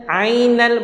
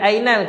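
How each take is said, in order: First: It begins with a squeezed throat ain sound. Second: It begins with a plain glottal stop. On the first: The speaker calls it right. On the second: The speaker calls it wrong.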